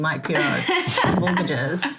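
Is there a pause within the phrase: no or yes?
yes. There is a pause inside the phrase. The speaker calls it right. "the obligatory pause in between"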